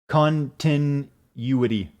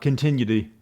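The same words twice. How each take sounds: First: Each syllable is said separately and distinctly. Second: The syllables are run together and slurred. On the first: "I broke it down in each one of its syllables" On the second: "I slurred it when I said it and it came out like continuity"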